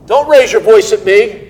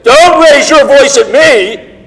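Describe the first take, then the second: First: It is said at a normal, calm volume. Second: It is said loudly, with a raised voice.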